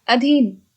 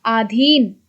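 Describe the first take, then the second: First: अधीन with a short first vowel, uh-dheen; correct form. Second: आधीन with a long first a, aa-dheen; wrong form read aloud. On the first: Teacher gives the correct अधीन with short uh. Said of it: "शुद्ध". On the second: Teacher reads the wrong spelling आधीन with long aa. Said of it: "अशुद्ध, शुद्ध". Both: Shown as a demonstration.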